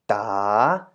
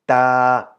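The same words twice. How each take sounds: First: The pitch dips and then rises. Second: The pitch stays level at mid height. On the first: "rising tone" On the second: "Middle tone is just the natural version"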